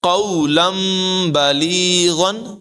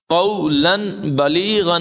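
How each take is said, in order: First: An m sound comes before the b. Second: A clear n sound comes before the b. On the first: The speaker calls it right. "بلکہ قولم بلیغن، اس طرح سے ادائیگی کریں گے" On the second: The speaker calls it wrong. "نہیں"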